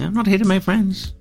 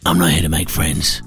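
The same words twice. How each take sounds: First: It is said in a gentle, less forceful way. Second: It is said in a much more forceful way.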